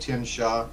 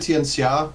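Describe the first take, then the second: First: The middle consonant is a plain SH sound. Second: The middle consonant is not a plain SH sound. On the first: This is how most people say it. The speaker calls it wrong. "most people will say it Tianxia ... with an S H sound" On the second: This is the technically correct form. The speaker calls it right. "It's it's technically Tianxia"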